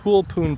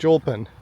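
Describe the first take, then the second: First: The name is said with a Spanish pronunciation. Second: The name is read as English spelling suggests. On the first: The speaker calls it right. "it's a Spanish pronunciation" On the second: The speaker calls it wrong. "It looks like"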